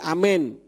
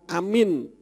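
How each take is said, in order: First: The word is said as amen, ending in men. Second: The word is said as amin, ending in min. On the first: It follows the Hebrew letters. The speaker calls it right. "tetapi amin. Amen ya, itu kalau dibaca berdasarkan huruf Ibraninya" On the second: It sounds like a person's name. The speaker calls it wrong. "bukan amin"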